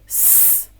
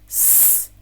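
No difference in how they are said.

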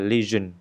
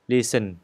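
First: The middle consonant is a voiced 'zh' sound. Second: The middle consonant is a voiceless 's' sound. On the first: The speaker calls it right. "Phải nói là lesion, Chúng ta phải phải rung cái giai thanh của mình đó" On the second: The speaker calls it wrong. "Nếu như các bạn phát âm là lesion thì nó không có đúng"

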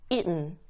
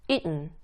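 The two takes are said the same way.

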